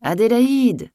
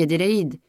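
First: High, loud roar of a summons; furious cry. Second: Said in the usual way. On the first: A narrator's reading. Master shouting up to the maid in bed, furious cry. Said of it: "Un cri furieux faisait trembler la maison". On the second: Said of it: "La mère prit la parole".

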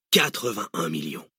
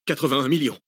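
First: Drawn-out, falling repeat of the figure; confident villain confirming the answer; relishing confirmation. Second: Slightly higher, hesitant reply; captive's uncertain guess, pitched up; tentative answer. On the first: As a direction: savour the sum with satisfaction. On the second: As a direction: offer the figure like a nervous pupil. Captive gives his uncertain answer. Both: Acted.

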